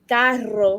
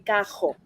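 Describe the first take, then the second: First: The R is trilled with the tongue tip. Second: The R is made back in the throat. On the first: "some of us pronounce it with the like carro" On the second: "moving the tongue up and back back to the throat"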